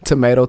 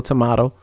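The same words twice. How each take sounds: First: "Tomato", middle rhyming with may. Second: "tomato", middle rhyming with spa; "tomato" as to-MAH-to. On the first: Host contrasts two options, "Tomato" as to-MAY-to. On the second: Host contrasts two options, "tomato" as to-MAH-to. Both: Shown as a demonstration. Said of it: "Does anybody say tomato?".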